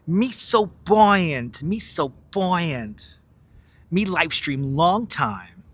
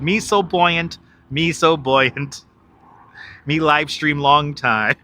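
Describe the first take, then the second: First: Very slow, drawn-out put-on voice; movie character imitation. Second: Slow, lightly put-on movie line; parody movie quote. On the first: Streamer saying it like the movie, slow character imitation. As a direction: stretch each word in a put-on movie voice. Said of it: "I'll say it like the movie, though". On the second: Streamer showing viewers his changed movie words, lightly mimicked quote. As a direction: quote it slowly with reworded punchline. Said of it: "But I changed the words. I changed the words. I said".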